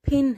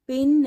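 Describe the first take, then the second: First: The first p has a strong puff of air. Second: The first p has no puff of air. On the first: The speaker calls it right. "ये फिन है" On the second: The speaker calls it wrong. "ये पिन नहीं है"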